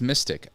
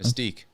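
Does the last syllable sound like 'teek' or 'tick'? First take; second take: tick; teek. First: The last syllable sounds like 'tick'. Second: The last syllable sounds like 'teek'. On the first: "Maybe it's mystic" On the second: "I pronounced it like antique"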